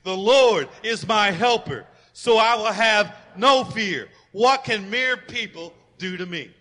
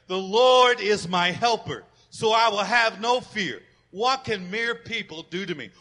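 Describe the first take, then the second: First: Louder, slow full-voice proclamation; as loud as you can. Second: Loud, slow group recitation; congregational recitation. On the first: Pastor urging everyone to shout the verse, loud. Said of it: "say it as loud as you can". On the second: Pastor leading the congregation in the verse, loud. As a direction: lead the church in saying it. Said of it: "Let's say this part together". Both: Acted.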